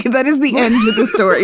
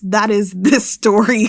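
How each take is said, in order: First: Giggling resignation; laughing. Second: Said in the usual way. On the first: Real, not acted. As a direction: say it through laughter. Laughs through the repeat.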